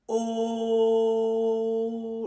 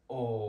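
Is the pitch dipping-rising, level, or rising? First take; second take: level; dipping-rising. First: The pitch stays level. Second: The pitch dips down and then rises. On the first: "Il est tout plat" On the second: "il descend et puis remonte"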